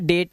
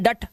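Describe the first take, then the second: First: The vowel is a long 'ay' sound. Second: The vowel is a short 'uh' sound. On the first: The speaker calls it right. "ए का उच्चारण क्या करना है, ये करना है" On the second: The speaker calls it wrong. "तो ये हो गया डट"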